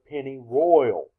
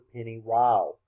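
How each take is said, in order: First: The last part sounds like the word 'royal'. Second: The last part sounds like the word 'rile'. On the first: This is how the name is written. "it is the penny royal" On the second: This is how most locals say the name. "most people, including myself a few seconds ago, pronounced it the penny ryle"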